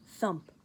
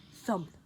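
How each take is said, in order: Both takes have the same delivery.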